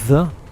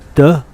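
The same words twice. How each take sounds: First: It begins with a soft th sound. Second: It begins without a soft th sound. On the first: The speaker calls it right. "how to say th" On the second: The speaker calls it wrong. "not the"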